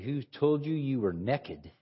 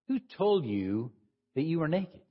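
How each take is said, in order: First: It is said in a Texan accent. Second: It is said in the speaker's usual accent.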